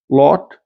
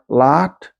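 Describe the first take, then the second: First: The vowel is rounded, Eastern New England style. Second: The vowel is unrounded, New York City style.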